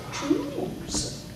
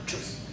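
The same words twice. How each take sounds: First: "Choose" held long, high and soft; a long, gliding "Choose"; drawn-out vowel. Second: "choose" cut short, no stretch; a brief, equal-length "choose"; short vowel. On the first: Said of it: "do things like this". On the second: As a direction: say "choose" quickly with an unheld vowel. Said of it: "Not choose". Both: Shown as a demonstration.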